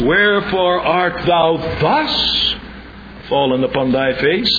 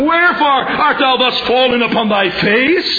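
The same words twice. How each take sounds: First: The word thus is stressed. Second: The word thus is not stressed. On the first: The question asks about the manner of his falling. The speaker calls it right. "But the question is" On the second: The question asks why he fell on his face. The speaker calls it wrong. "The question is not"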